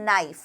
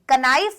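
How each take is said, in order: First: The word begins with an n sound. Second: The word begins with a sounded k. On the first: The speaker calls it right. "आप क्या बोलते हैं?" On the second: The speaker calls it wrong. "कनाइफ नहीं बोलते।"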